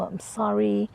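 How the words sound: It is said warmly and tenderly. The apology is sincere and loving. The speaker calls it right. "apologize with affection"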